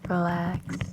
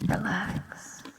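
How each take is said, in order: First: The word is spoken in a normal voice. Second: The word is whispered without voice. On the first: "if I say it normally" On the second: "when I whisper"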